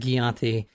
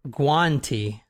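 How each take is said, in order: First: The name has an extra vowel after the G. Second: The name has no extra vowel after the G. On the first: The speaker calls it wrong. "I guess I pronounced it Guianti" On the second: The speaker calls it right. "but it's pronounced Guanti"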